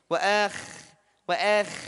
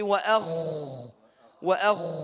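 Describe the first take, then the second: First: The kha sound is made thin and light. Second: The kha sound is made thick and heavy. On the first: The speaker calls it wrong. "Kha sukun tidak boleh kita tipiskan seperti ini. ... tipis" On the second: The speaker calls it right.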